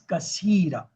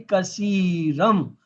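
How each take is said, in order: First: The word ends with a plain vowel. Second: The word ends with an m sound. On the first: The reader stops after this word. "it's kasira" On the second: The word is joined to the next word. "when you join, then you will say kasiram"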